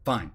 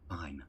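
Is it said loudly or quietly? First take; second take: loudly; quietly. First: It is said at normal loudness. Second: It is said more quietly.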